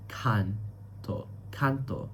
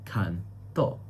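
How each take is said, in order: First: "canto" with the weight on "can", soft "to"; stress on CAN. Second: "canto" rising onto a stressed final "to". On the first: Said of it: "the stressed syllable is can". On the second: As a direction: say "canto" as can-TO. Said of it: "the stressed syllable is to". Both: Shown as a demonstration.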